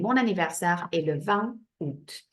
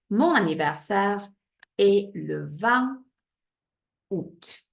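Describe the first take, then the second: First: "Mon anniversaire est le vingt août" in one smooth French flow; fluent French sentence. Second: Slow model sentence. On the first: Teacher giving pupils the finished sentence, fluent French. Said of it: "with its little silent A". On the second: Teacher building the sentence for pupils, slow chunks. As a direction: spell out "Mon anniversaire est le vingt août" chunk by chunk. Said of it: "Don't forget your little accent". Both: Shown as a demonstration.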